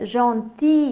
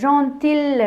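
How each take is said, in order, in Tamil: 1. இந்தச் சொல் எந்த l ஒலியும் இல்லாமல் முடிகிறது. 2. இந்தச் சொல் l ஒலியுடன் முடிகிறது. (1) "ஜான்டி என்று சொல்ல வேண்டும்" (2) "இல்லைன்னு சொல்கிறேன், ஜான்டில் என்று சொல்கிறேன்"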